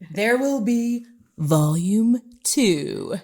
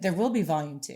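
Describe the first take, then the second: First: It is said more loudly. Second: It is said more quietly.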